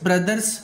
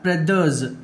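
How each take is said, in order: First: The final sound is a hissing s. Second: The final sound is a buzzing z. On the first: The speaker calls it wrong. "ఇలా చాలా చెప్పకూడదు" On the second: The speaker calls it right. "yes must be pronounced like za"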